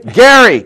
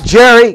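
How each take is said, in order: First: The name starts with a hard G sound. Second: The name starts with a soft J sound. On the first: The speaker calls it right. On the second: The speaker calls it wrong. "Not Jerry"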